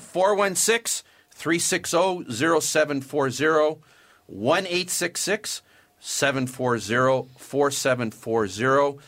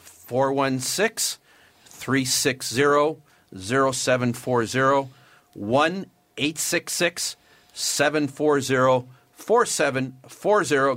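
First: The numbers are read quickly. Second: The numbers are read more slowly.

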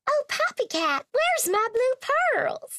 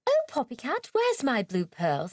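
First: It is spoken in an American accent. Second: It is spoken in a British accent.

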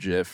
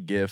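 First: It begins with a soft j sound. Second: It begins with a hard g sound. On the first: The speaker calls it wrong. "and not GIF... I'm not a, you know, peanut butter guy" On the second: The speaker calls it right. "thank God you say GIF"

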